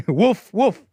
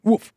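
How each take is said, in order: First: Loud, high double woof; imitated dog woof. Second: One loud, high, badly imitated woof; a single failed attempt at a bark; bad dog woof. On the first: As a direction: bark out two punchy woofs. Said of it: "you guys like that woof". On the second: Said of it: "No, that's a bad wolf". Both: Shown as a demonstration.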